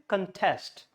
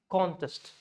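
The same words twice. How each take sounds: First: The stress is on the second syllable. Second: The stress is on the first syllable. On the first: It is used as a verb. "and then stress is contest" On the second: It is used as a noun meaning competition. "when it's a noun, it's called contest. It stresses on the O"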